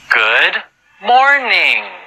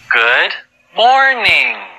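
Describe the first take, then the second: Both takes have the same delivery.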